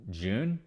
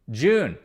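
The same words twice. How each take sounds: First: "June" softer, with a questioning rise; "June" lifted at the end, unsure. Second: "June" stated firmly with a falling tune; firm confirmation. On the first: Checks the date, unsure. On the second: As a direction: land "June" as a definite answer. Confirms the date after checking. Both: Real, not acted.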